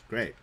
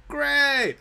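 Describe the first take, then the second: First: Said in the usual way. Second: Loud, high sarcastic exclamation; mock cheer. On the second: Player finding he has no torches, mock cheer. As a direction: burst out in false delight.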